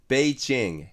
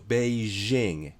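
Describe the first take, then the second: First: The j is said as an affricate, like 'jam'. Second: The j is said as a fricative, like 'measure'. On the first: It is closer to the original Chinese. "この破殺音にした方が" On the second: It is meant to sound foreign. "北京っていう人が多いんですよ"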